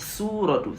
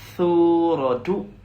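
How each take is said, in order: First: It begins with a plain s sound. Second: It begins with a th sound, tongue between teeth. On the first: The speaker calls it wrong. "C'est pas sou" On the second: The speaker calls it right. "mais plutôt thu. La langue coincée entre les dents"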